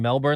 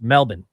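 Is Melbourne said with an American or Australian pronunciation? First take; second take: American; Australian. First: Melbourne is said with an American pronunciation. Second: Melbourne is said with an Australian pronunciation. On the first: "like most Americans" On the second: "I'm saying it like the Australian way"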